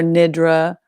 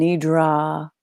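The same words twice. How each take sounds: First: Nidra with a short first vowel and light ending; variant pronunciation. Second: Nidra with a long, open final "ah"; Nidra, "nee" then a drawn-out "drah"; variant pronunciation. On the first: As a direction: say Nidra as NID-ruh. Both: Shown as a demonstration. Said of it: "and so many other ways".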